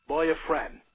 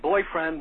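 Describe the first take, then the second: First: Put-on "boyfriend" as "boy-a-friend", an extra vowel after boy; the Sicilian mother's "boyfriend" with a vowel slipped in; mother's accent. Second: Said in the usual way. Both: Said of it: "boyfriend was boyfriend".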